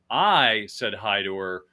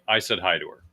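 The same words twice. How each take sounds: First: The stress is on the word I. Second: No word is stressed; it is said flat.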